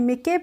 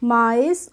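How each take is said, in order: First: It has a short i, a k and a final e. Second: It has an 'eye' vowel and ends in s. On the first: The speaker calls it wrong. "इसको मिके नहीं पढ़ते हैं" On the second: The speaker calls it right. "इसको हम पढ़ते हैं माइस"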